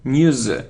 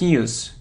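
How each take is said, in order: First: The word ends with a z sound. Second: The word ends with an s sound. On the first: The speaker calls it right. "it's news, z, z" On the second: The speaker calls it wrong. "It isn't news"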